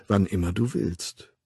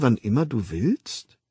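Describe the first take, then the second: First: "Wann immer du willst" as a statement, falling at the end; bestätigende Antwort. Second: "wann immer du willst" as a question, rising at the end; staunende Frage. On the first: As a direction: answer "Wann immer du willst" calmly, closing downward. Mother confirms the child's question. („Wann immer du willst“ ruhig, am Ende fallend) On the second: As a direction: ask "wann immer du willst" with wonder, lifting the last word. Child's wondering question, then her answer. („wann immer du willst“ fragend, am Ende steigend) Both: A narrator's reading.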